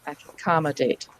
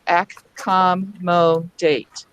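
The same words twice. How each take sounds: First: "Accommodate" blended into one word, ac-com-mo-date; said faster. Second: "Accommodate" very slowly, ac... com... mo... date; both C's and M's sounded. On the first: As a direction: run the syllables of "Accommodate" together, softer and lower. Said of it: "then you just say it faster". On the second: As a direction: sound out every syllable of "Accommodate" separately. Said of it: "if you were to say both C's and both M's". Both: Shown as a demonstration.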